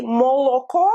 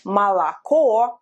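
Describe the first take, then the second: First: "молоко" as mo-lo-ko, every O full; unreduced O. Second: "молоко" as ma-la-KO, stress last; reduced unstressed O. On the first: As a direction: say "молоко" with round O in all three syllables. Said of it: "If you say". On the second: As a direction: say "молоко" with ah in the first two syllables. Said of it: "it's pronounced as A". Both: Shown as a demonstration.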